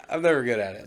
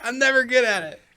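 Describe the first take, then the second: First: Said in the usual way. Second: High, loud laughing squeal; helpless high-pitched laughter through the words. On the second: Real, not acted. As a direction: crack up at your own failed attempt. Laughing after failed accent attempt.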